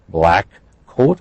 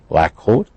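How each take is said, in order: First: Each k sound is released separately. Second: The two k sounds blend into one.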